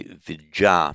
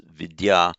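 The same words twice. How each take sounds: First: Vidya said as vijja, with a j sound; Pali pronunciation. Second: Vidya with separate d and y sounds; Sanskrit pronunciation. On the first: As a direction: say vidya as VIJ-jah. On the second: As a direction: say vidya as VID-yah. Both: Shown as a demonstration. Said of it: "that becomes in Pali vidya".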